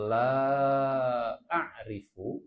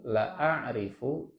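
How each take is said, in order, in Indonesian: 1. Vokal pada 'la' dibaca panjang. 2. Vokal pada 'la' dibaca pendek.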